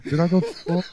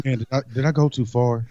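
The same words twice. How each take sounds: First: Raspy, higher smoker's rasp. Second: Said in the usual way. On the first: Real, not acted. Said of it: "You sound like a smoker".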